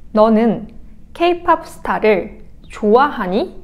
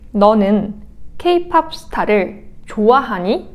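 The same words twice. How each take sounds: The two takes are said the same way.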